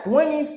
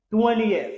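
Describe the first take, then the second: First: "twentieth" squashed to "TWEN-ith", pitched higher; mispronounced twentieth. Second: "twentieth" as "TWEN-ee-eth", falling; correct three-syllable twentieth. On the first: Teacher rejects the wrong form, "twentieth" mispronounced as "TWEN-ith". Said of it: "il va faire twentieth". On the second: Teacher gives the right form, "twentieth" as "TWEN-ee-eth". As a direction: open the ending of "twentieth" into "ee-eth". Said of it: "il va faire". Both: Shown as a demonstration.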